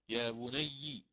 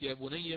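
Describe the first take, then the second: First: The final syllable ends with an i vowel. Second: The final syllable ends with a different vowel. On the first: "هنا بالكسر ننتبه" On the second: "وليست يا بني مثل ما يقرأ الإمام حفص"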